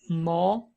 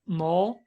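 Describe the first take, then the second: Both takes have the same delivery.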